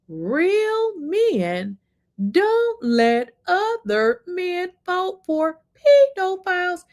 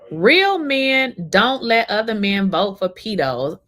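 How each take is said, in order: First: It is said very slowly. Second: It is said at normal speed.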